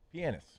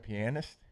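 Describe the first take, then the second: First: The word is said quickly and compressed. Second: The word is said at a normal pace.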